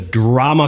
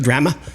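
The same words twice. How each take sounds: First: It is said in a standard Canadian accent. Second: It is said in a Newfoundland accent.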